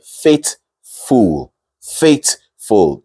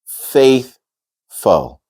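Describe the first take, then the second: First: "faithful" with a hard t for th, "fayt-fool"; mispronounced faithful. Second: "faithful" with a light th and a short, weak second vowel; correct th pronunciation. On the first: Teacher quoting a mistake she has heard, wrong "faithful". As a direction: swap the th in "faithful" for a plain t. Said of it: "Two wrong things there". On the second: Teacher modelling the word for learners, careful "faithful". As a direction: say "faith-fl", syllables set apart. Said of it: "So the word is". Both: Shown as a demonstration.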